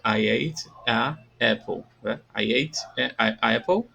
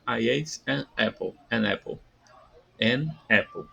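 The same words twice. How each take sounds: First: Slow "I ate a apple" with vowel clash; wrong form demo. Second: "an apple" linked smoothly, slow; correct form. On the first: Teacher demonstrates the wrong "a apple" slowly. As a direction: stumble over "a apple", vowel against vowel. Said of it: "em vez de ficar". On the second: Teacher models the right "an apple" for students. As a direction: join "an" straight into "apple". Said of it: "vogal com vogal fica". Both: Shown as a demonstration.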